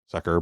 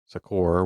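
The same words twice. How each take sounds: First: The last syllable has a reduced 'er' vowel. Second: The last syllable has a full 'or' vowel. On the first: It is the common word sucker. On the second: It is the archaic word meaning help.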